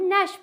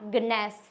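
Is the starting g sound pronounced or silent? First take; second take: silent; pronounced. First: The word starts with an n sound, no g. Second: The word starts with an audible g sound. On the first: The speaker calls it right. "इसको हम नैश पढ़ते हैं" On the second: The speaker calls it wrong. "Not गनैस"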